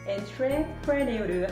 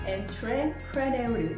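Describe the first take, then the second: First: It is said letter by letter, as spelled. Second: The same.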